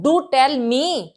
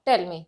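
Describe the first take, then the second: First: Teacher insisting do tell me; emphatic do. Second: Said in the usual way. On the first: Shown as a demonstration. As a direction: press the do to insist. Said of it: "emphasise करके बोलना". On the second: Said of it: "मैंने एक simple वे में बोला".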